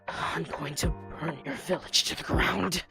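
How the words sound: It is spoken low, queasy, from the stomach. "down in your stomach where it's nice and nauseous"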